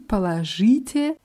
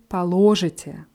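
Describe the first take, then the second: First: The stress is on the third syllable. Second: The stress is on the second syllable.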